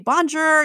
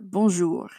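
First: It is said with a heavy American accent. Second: It is said with a native French accent. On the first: The speaker calls it wrong. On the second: The speaker calls it right.

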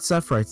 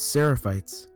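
First: The middle syllable is dropped from the word. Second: The middle syllable is kept in the word. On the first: The speaker calls it wrong. "it's not Sephrites" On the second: The speaker calls it right. "It's Seraphites"

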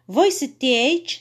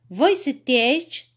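Both takes have the same delivery.

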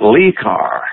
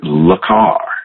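First: The first word is said with a long 'lee'. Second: The first word is said with a short French 'luh'. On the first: The speaker calls it wrong. "he mispronounced it" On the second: The speaker calls it right. "they called it Le Car"

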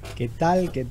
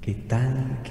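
First: The voice sounds dry, with no added echo. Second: The voice sounds processed, with added reverb.

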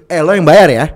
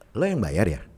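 First: It sounds like a forceful, emphatic demand. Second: It sounds like a genuine questioning request. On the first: The speaker insists that the listener must pay. "Tapi kalau pakai tanya seru" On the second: The speaker is asking whether the listener will pay. "Lu pakai tanda tanya di belakangnya. Berarti lu nanya dong"

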